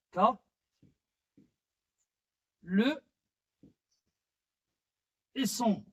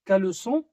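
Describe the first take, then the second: First: "K, le et son" broken up with long pauses; syllable by syllable. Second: Said in the usual way. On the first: Shown as a demonstration. Teacher splitting caleçon for learners, "K, le et son" syllable by syllable. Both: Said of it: "possède trois syllabes".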